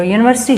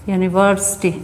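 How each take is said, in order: First: Said in the usual way. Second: यूनिवर्सिटी sounded out with an opening Y sound. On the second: Shown as a demonstration. Teacher showing how to spell by sound, यूनिवर्सिटी said carefully from "yoo". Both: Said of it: "उसको हिंदी में लिख के देख लो".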